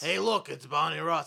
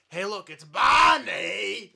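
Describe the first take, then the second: First: The name Barney is said plainly. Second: The name Barney is shouted excitedly.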